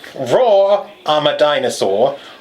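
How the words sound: It is read in a put-on Australian-sounding accent.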